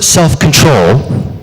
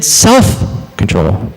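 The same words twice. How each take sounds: First: Drawn-out self-control, weight on "control"; stress on CONTROL. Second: "self" punched and drawn out, "control" dropped; slow, heavy emphasis on "self"; stress on SELF. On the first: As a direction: land hard and slow on "control". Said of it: "I put the emphasis on the word control". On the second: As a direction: hit "self" hard, then let "control" fall away. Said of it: "I just said the same word three times". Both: Shown as a demonstration.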